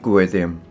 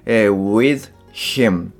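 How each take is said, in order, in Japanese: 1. hは落ちて、thがimにつながります。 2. 'him'のhの音は発音されます。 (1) "H が脱落した後のim、これがくっついてwith them のような発音になります" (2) "with him ではなくて"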